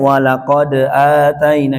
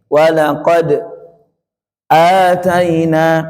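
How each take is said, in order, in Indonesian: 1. Kedua kata tersambung tanpa jeda sama sekali. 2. Jeda singkat tanpa napas memisahkan kedua kata. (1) "Kalau kita tidak ada biasa" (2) "ada jeda, betul-betul jeda"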